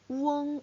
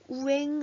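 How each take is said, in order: First: The vowel sounds like an 'o'. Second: The vowel sounds like an 'e'. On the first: The speaker calls it right. "우엉으로 읽어주셔야 되는 거" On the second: The speaker calls it wrong. "우엥 아니고"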